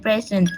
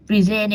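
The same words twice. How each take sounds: First: PRE-sent, the noun, "PREZ-ent"; stress on first syllable. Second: Pre-SENT, the verb, "pri-ZENT"; stress on second syllable. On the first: Student presenter contrasting noun and verb, present stressed on the first syllable. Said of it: "the stress is usually on the first syllable". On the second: Student presenter contrasting noun and verb, present stressed on the second syllable. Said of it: "the stress is usually on the second syllables". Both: Shown as a demonstration.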